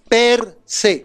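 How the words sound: The two words are said separately with a break. "No es pegado, es separado"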